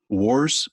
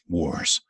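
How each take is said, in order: First: The pitch rises at the end of the word. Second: The pitch curves downward at the end. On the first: The speaker calls it wrong. "or up" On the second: The speaker calls it right. "make sure to curve it down"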